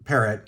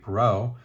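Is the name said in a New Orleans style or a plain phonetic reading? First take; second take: phonetic reading; New Orleans. First: The name is said as a plain phonetic reading. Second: The name is said in a New Orleans style. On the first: This is a guess from reading the name. "I'm just going to go with Parrott because you know I was hooked on phonics" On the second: This may be how the author says his own name. "If this particular individual is from New Orleans, he may uh, pronounce his name Perot"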